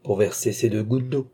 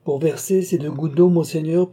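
First: Said in the usual way. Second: Higher and louder, rising on d'eau; sly mock innocence. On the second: Nicole answering the marshal with sly, raised innocence. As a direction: play it coy and knowing. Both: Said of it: "repeated line".

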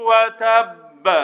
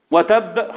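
First: وتب drawn out, doubled ب held then released with a bounce; slow chanted وتب with a full bouncing ب; strong greatest qalqala. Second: وتب said short, without a strong bounce on the doubled ب; spoken وتب with no held shadda; wrong qalqala. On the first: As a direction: hold the shadda of وتب, then echo the ب. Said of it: "هو ده حقه". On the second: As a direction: give وتب a quick, weak final ب. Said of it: "خطأ". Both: Shown as a demonstration.

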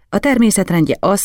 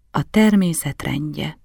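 First: Said in the usual way. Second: Slow, thoughtful repetition; measured, unhurried echo; said slowly. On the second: A narrator's reading. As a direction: draw the phrase out, weighing each word. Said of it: "mondtam lassan".

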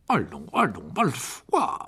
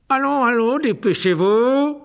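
First: A faint smile in the voice; slight smile. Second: High, loud, slow bark. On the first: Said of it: "en laissant un sourire s'esquisser". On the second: Teacher barking orders at the pupils, loud. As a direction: snap the class into moving. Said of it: "aboya Rogue". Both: A narrator's reading.

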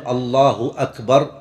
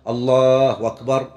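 First: Said in the usual way. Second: Slow "الله أكبر" run together as "allaahu wakbar"; hamza turned to waw. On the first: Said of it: "لا يقول". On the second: Shown as a demonstration. Teacher showing the common error, "أكبر" glided into wakbar. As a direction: replace the glottal stop of "أكبر" with a w. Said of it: "إبدال الهمزة واوا".

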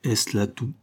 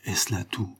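First: Hollow, booming voice from hiding; a muffled, echoing voice behind the flowers; cavernous voice. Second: Softer, deeper hollow voice; lower cavernous voice. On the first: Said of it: "une voix caverneuse émergea". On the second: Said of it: "répéta la voix sur un registre plus bas encore". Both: A narrator's reading.

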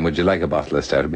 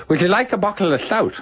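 First: Said in the usual way. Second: High, slurred voice with a laugh in it; mock slurred high voice; Buckles' impaired speech. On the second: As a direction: mimic a man with a speech impediment. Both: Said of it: "instead of saying".

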